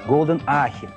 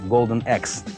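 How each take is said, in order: First: The second word sounds like 'ah-khe'. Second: The second word sounds like English 'axe'. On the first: The speaker calls it wrong. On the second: The speaker calls it right.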